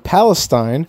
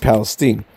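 First: It uses the usual, widely known pronunciation. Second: It uses the pronunciation local residents use. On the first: This is how outsiders say the name. The speaker calls it wrong. "don't try to correct me and tell me Palestine, because that's not the way Palestinians... pronounce that" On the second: This is how the town's own residents say it. The speaker calls it right. "They pronounce it Palestine"

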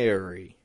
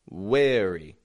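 First: The word begins with a v sound. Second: The word begins with a w sound. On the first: The speaker calls it right. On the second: The speaker calls it wrong.

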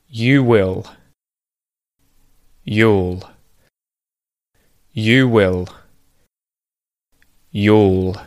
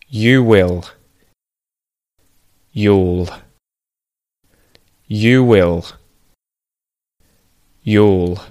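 Both takes have the same delivery.

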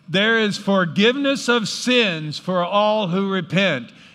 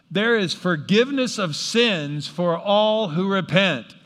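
First: It is said with energy and gusto. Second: It is said plainly, without extra energy.

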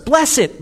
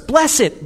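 First: It is said with a sincere tone. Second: The same.

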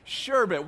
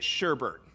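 First: The second syllable has no r sound. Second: The second syllable has an added r sound. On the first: The speaker calls it wrong. "she pronounces words the way they're spelled" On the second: The speaker calls it right. "every sane and rational person that I've ever met pronounces it sherbet"

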